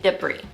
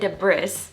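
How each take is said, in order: First: The S sound is silent. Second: The S sound is pronounced. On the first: The speaker calls it right. "you say debris" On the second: The speaker calls it wrong. "if you don't say debris or anything like that"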